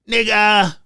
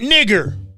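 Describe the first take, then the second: First: The word ends in a vowel without R. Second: The word ends with a hard R sound. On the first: The speaker calls it right. "we can probably let her get by with that" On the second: The speaker calls it wrong. "with the hard R, the hard R"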